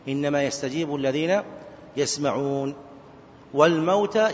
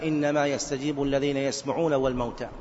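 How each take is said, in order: First: The phrase runs on without stopping after the last word. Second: The phrase ends with a stop after the last word. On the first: The dead are the start of a new statement about resurrection. The speaker calls it right. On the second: The dead are wrongly grouped with those who hear and respond. The speaker calls it wrong.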